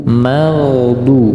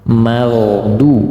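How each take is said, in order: The two takes are said the same way.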